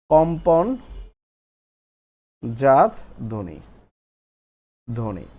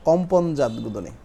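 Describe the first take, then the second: First: কম্পনজাত stretched out, long pause before ধ্বনি; slow dictation. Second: Said in the usual way. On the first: Shown as a demonstration. Teacher dictating a new heading to the class, slow and broken up.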